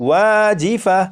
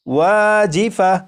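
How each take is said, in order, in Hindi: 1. शब्द नरम 'ah' आवाज़ पर खत्म होता है। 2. शब्द नरम 'ah' आवाज़ पर खत्म होता है।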